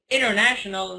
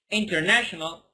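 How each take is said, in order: First: The middle t sounds like a soft D. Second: The middle t is a crisp T sound. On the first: "I say it's international" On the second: "not international ... it's not wrong"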